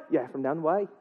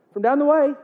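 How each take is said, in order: First: Softer Irish reply at an everyday pitch; mock Irish accent. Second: High, questioning Irish lilt; mock Irish accent. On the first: Seamus confirms which Patrick, quiet mock Irish accent. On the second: Buddy asks which Patrick is meant, mock Irish accent. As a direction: check who is meant, in put-on Irish. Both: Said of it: "I'm gonna get that accent".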